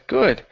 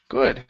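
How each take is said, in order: Both takes have the same delivery.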